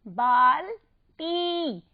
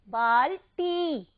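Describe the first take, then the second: First: बाल्टी very slow, a pause before long टी; syllable by syllable. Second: बाल्टी slow, closer together, टी held; long ī ending. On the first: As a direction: split बाल्टी and hold its ending. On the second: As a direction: draw out the last vowel of बाल्टी. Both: Shown as a demonstration. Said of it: "उसे हमने कैसे बोला".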